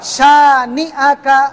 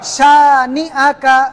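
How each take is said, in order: The two takes are said the same way.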